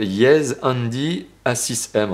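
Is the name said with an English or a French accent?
French. It is said with French pronunciation. "en français"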